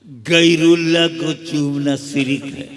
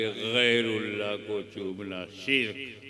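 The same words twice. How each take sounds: First: शिर्क mangled into "sirik" with a plain s and extra vowel; mock the half-trained mufti saying शिर्क as sirik; imitating an unlettered mufti mispronouncing शिर्क; botched Urdu pronunciation. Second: शिर्क said crisply as "shirk" with a clean sh; the educated scholar saying शिर्क correctly; correct Urdu pronunciation. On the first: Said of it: "Urdu भी नहीं आती". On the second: Retold or imitated. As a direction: say शिर्क properly, one syllable, sh sound. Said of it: "pronunciation अच्छा है".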